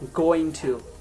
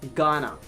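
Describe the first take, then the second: First: Both words are said fully and separately. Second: The words blend into one reduced word. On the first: The speaker calls it wrong. "That means it's very hackneyed" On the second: The speaker calls it right. "So you'd be better to use something better English"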